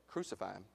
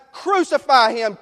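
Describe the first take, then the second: First: "Crucify him" dropped low and near silent; quiet inner crucify. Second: Loud, slow, high shouted demand; mob shout. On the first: Retold or imitated. Preacher asking the church, saying "Crucify him" low and hushed. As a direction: murmur "Crucify him" as a hidden thought. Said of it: "how many of us have ever said". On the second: Acted. Preacher voicing the mob, shouting it slowly and loudly. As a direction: hurl it at the crowd.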